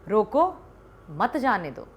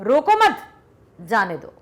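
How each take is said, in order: First: There is a pause after 'roko'. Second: There is a pause after 'mat'. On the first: Stop the person; do not let them go. "यहां पर यदि हमने अल्प विराम लगा दिया" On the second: Do not stop the person; let them go. "अब यहां पर मत के बाद यदि लगाया हमने"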